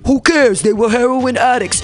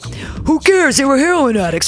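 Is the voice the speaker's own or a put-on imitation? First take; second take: put-on; own. First: It is said in an imitated politician's voice. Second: It is said in the speaker's normal voice.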